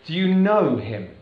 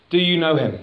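First: "know" carries the weight, said slowly; slow down and press on "know"; stress on KNOW. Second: "Do" hit hardest, rest of question falls away; stress on DO. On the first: Preacher to congregation, shifting stress onto "know". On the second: Preacher asking church the first question, stressing "Do". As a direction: lean on "Do" as the question. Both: Shown as a demonstration. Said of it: "change the emphasis on a sentence".

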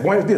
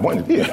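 First: Smooth, easy native greeting; quick, confident buenos días; fluent greeting. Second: Mangled, laughing buenos días; awkward learner's buenos días; fumbled greeting. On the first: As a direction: toss it off like a native speaker. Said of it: "Somebody say". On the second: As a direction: stumble over it with a nervous laugh. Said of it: "I'm like". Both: Retold or imitated.

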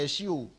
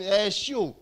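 First: Said in the usual way. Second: Loud mocking shout; angel shouting. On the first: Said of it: "the angel say". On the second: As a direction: bellow it like a jeering angel. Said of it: "one angel is shouting".

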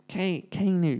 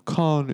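First: Kanu said as Kay-noo; Kay vowel. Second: Kanu said with a long "ar", as Kar-noo; long AR vowel. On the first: Arguing there is no R, Kanu as Kay-noo. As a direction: sound out Ka-, Kanu with "kay" as in Kane. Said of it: "it's more of a Ka". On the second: Co-host trying the disputed name, Kanu as Kar-noo. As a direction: stretch the first vowel of Kanu like "car". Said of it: "there's no R in it". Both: Shown as a demonstration.

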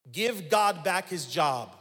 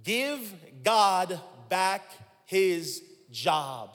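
First: Slow, weighty, stress on God; preacher lays down the line firmly; slow emphatic declaration. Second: Even slower, stretched emphasis on God; slower, drawn-out repeat. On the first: Preacher to congregation, slow stress on God. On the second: Preacher repeats for the congregation, drawn out. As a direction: stretch every word for the congregation. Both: Shown as a demonstration. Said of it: "Let's say it again".

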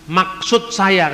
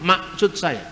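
First: "Maksud saya" said slowly and carefully, with the K in "Maksud" clearly voiced; correct pronunciation. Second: "Maksud" said as "masut", the middle K dropped, Batak style; Batak accent. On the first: Lecturer giving the standard form the Batak don't use, careful pronunciation. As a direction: spell out "Maksud" slowly, K fully sounded. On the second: Lecturer imitating how Batak people say maksud, Batak accent. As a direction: swallow the K in "Maksud" like a Batak speaker. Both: Shown as a demonstration. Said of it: "kan orang Batak nggak ngomong".

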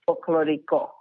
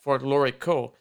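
First: Folklorico with a tapped Spanish r and pure vowels, fol-klo-REE-ko; Spanish pronunciation. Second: Folklorico with a hard American r, for-KLOR-ee-ko; Michigan-accented Folklorico; Michigan twang. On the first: Shown as a demonstration. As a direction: say Folklorico the Spanish way, as the correct model. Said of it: "how do you say it one more time?". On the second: Retold or imitated. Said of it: "I got my Michigan twang going on".

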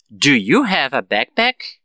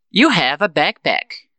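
First: Slow, "backpack" rising at the end; question intonation. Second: "backpack" falling at the end; affirmative statement. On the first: Teacher models the learner's reply, slow rising question. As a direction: ask slowly, lifting the end of "backpack". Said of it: "com a entonação de pergunta". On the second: Teacher gives students the model affirmative, falling statement. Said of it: "Eu falo a frase na afirmativa". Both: Shown as a demonstration.

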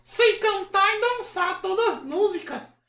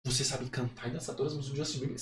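First: Very high, slow puppet voice; Kleber. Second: Said in the usual way. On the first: Acted. Puppet bragging about his idol's songs, high puppet voice. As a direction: boast slowly as a squeaky dummy. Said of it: "acha uma voz que pareça com o boneco".

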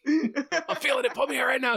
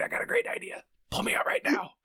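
First: Much higher, comic urging voice; high-pitched insistent tempter, laughter creeping in; mock urgent pleading. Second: Whispered, scheming tempter; conspiratorial whisper. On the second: Acted. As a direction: whisper it like a secret bad idea. Voicing the body part as tempter.

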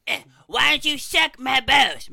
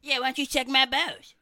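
First: Slow bellowing redo, much higher and louder; loud slow shout. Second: Said in the usual way. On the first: Shown as a demonstration. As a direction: belt it out slowly as the corrected take. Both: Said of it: "Much better".

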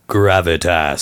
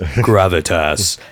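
First: Low, resonant gravitas voice; deep voice. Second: Low and slow gravitas; deeper, slower voice. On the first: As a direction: drop the voice for weight. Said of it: "try and outvoice each other". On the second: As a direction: stretch it out deep and slow. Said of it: "you say it like this". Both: Retold or imitated.

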